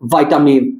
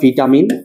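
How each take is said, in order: First: The first syllable sounds like 'vye'. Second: The first syllable sounds like 'vee'. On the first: "অ্যাকসেন্টের কারণে কোনো problem নাই, তুমি তোমার মতো একটু স্টাইল করে বলতেই পারো" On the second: "ফার্স্টে বলবা ভিটামিন"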